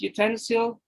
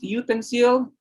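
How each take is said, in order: First: The stress falls where American English speakers place it. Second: The stress falls where Philippine English speakers place it. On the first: "But in the American English, we'll say" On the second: "in Philippine English"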